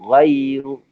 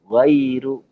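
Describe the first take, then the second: The two takes are said the same way.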